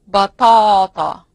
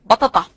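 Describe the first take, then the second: First: The word is said with long vowels. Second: The word is said with short vowels.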